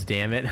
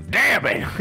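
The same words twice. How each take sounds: First: Said in the usual way. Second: Put-on high, loud yell in a southern accent. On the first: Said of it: "gets shot and yells". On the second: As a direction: imitate a southern character yelling when shot. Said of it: "In a fucking southern accent".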